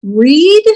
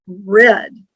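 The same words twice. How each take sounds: First: "Read" louder, rhymes with need; read as reed. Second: "read" rhymes with bed; read as red. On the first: Teacher showing the present tense, loud "Read" as reed. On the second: Teacher showing the past tense, "read" as red. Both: Shown as a demonstration. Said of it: "can be pronounced as".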